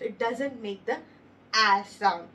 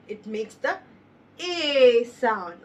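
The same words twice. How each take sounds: First: A said as a short flat "a" like in cat; wrong short a. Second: A said as a long "ay", loud; long a sound. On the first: Teacher showing the wrong vowel, short a. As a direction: say the A in "It doesn't make the A sound" as short /a/. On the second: Teacher showing the right vowel, long ay. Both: Shown as a demonstration.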